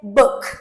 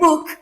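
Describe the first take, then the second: First: The vowel is a short uh sound. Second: The vowel is a long oo sound. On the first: The speaker calls it right. "since the the sound is uh" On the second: The speaker calls it wrong. "so you don't say book"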